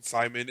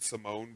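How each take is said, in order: First: "Simon" said SY-mun, stress on the first syllable; name said as Simon. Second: "Simone" said suh-MOHN, stress on the second syllable; name said as Simone. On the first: Host announcing both versions of the name, "Simon" as SY-mun. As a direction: pronounce "Simon" with a long eye vowel up front. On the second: Host announcing both versions of the name, "Simone" as suh-MOHN. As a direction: pronounce "Simone" with a long oh at the end. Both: Shown as a demonstration. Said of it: "will be alternating between Simon and Simone".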